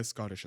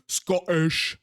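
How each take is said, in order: First: Said in the usual way. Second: Loud, slow attempt at a Scottish accent. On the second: Shown as a demonstration. Streamer playing with dwarves' accent, amateur Scottish accent. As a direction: have a go at a broad Scottish "Scottish". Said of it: "Not particularly good at it".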